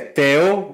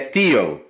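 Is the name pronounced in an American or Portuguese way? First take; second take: Portuguese; American. First: The name is said with a Portuguese pronunciation. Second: The name is said with an American-style pronunciation.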